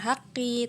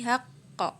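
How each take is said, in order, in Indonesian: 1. Kata ini berakhir dengan vokal i. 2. Kata ini berakhir dengan bunyi o yang memantul. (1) "bukan haqqi" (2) "tapi haqqo"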